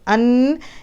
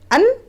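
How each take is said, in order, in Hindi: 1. अंतिम n को रोककर नासिका से खींचा जाता है। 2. अंतिम n तुरंत काट दिया जाता है। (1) "ये वाला जो खींचना है ये चीज़ तनवीन में नहीं है" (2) "ख़त्म कर देना है"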